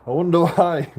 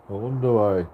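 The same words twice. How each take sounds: First: Loud mock wonder, pointed; knowing, sarcastic question. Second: Said in the usual way.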